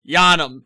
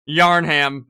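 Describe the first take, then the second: First: The word is said without an R sound. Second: The word is said with an R sound. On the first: The speaker calls it right. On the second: The speaker calls it wrong.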